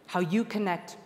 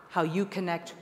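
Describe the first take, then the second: No difference in how they are said.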